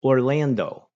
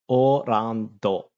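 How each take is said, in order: First: Said in the usual way. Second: "Orlando" stretched very slowly, syllable by syllable; slow, exaggerated "Orlando"; drawn-out pronunciation. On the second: Shown as a demonstration. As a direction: draw out each syllable of "Orlando". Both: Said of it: "that's not how Japanese people say it".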